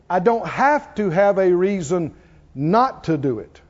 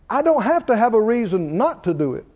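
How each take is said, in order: First: It is said very slowly. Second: It is said at normal speed.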